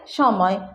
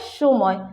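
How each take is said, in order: First: The first vowel sounds like 'a'. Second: The first vowel sounds like 'u'. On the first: "कोई कोई बोलता है समय" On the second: "कुछ लोग बोलते हैं सुमय"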